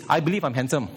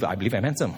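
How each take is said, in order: First: Said in the usual way. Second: "I believe I'm handsome" said lower through a chuckle; mock-vain "I'm handsome" with a laugh; laughing self-mockery. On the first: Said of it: "when they say believe is this". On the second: Shown as a demonstration. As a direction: tease yourself, laughing on "handsome". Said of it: "You don't have to believe".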